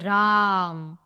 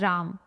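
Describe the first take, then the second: First: The vowel is held out very long. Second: The vowel is held for a normal length. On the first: "तब ये होगा क्लुप्त स्वर या मात्रा" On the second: "ये है राम"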